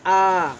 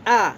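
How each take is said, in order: First: आ held twice as long; आ को दो गुना खींचो; long vowel. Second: Short vowel. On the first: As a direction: stretch the आ to double length. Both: Shown as a demonstration. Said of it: "दीर्घ स्वर उससे double बोलेंगे".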